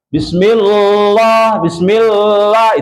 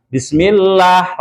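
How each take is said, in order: First: Bismillah with a heavy, dark lam, drawn-out "lloh"; wrong thick reading of Bismillah; thick lam error. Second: Bismillah with a light, thin lam, slowly; correct thin lam. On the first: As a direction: say Bismillah with the l too thick and slow. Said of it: "itu sudah tebal". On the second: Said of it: "Harusnya bagaimana?". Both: Shown as a demonstration.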